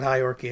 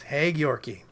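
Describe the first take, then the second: First: The name begins with the sound 'hi'. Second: The name begins with the sound 'hey'. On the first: The speaker calls it wrong. "It's not Hi Yorkie" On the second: The speaker calls it right. "It's Hey Yorkie"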